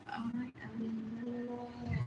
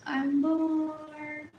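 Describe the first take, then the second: First: Very slow, very soft, drawn out; slow bored drawl. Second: Said in the usual way. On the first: Shown as a demonstration. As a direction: drag every word out quietly.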